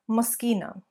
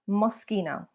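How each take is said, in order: The two takes are said the same way.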